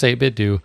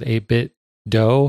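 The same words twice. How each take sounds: First: The last syllable rhymes with "too". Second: The last syllable rhymes with "go". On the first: The speaker calls it right. "I'm pretty sure it's 8-Bit Do" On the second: The speaker calls it wrong. "like sort of like Nintendo"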